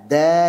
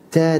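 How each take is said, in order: First: The d is released crisply without breath. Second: The d is released with a puff of breath. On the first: The speaker calls it right. "Tapi kalau dal Arabi" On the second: The speaker calls it wrong. "Bagi orang Jawa ini da ... Hamas"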